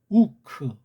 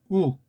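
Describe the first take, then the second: First: A short vowel is added after the k. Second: It ends abruptly on a closed k sound. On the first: The speaker calls it wrong. "대개는 우크" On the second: The speaker calls it right. "이건 우리만이 할 수 있는 것이고"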